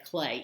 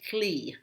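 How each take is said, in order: First: The syllable ends in an ay vowel. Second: The syllable ends in an ee vowel. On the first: "most speakers in our area are going to say clay" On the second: "they tend to say clee"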